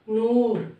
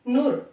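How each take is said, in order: First: The vowel is drawn out long. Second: The vowel is said short and clipped. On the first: The speaker calls it right. "जदों दुलैंकड़ पई तां उह शब्द बन गया नूर" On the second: The speaker calls it wrong. "जे कल्ली हुंदी फिर होना सी नूर। ठीक है, जो कि गलत है"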